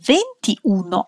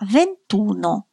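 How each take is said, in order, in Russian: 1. Гласный i перед uno произносится. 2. Гласный i перед uno опускается. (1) "не ventiuno" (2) "потеряется одна гласная – ventuno"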